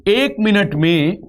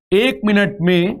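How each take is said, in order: Both takes have the same delivery.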